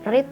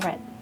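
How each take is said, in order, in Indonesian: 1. Vokalnya panjang, berima dengan 'seed'. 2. Vokalnya pendek, berima dengan 'bed'. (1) "tidak dibaca read" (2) "tapi dibacanya read"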